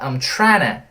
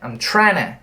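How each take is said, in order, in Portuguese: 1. As palavras se juntam, com 'to' reduzido. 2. As palavras se juntam, com 'to' reduzido.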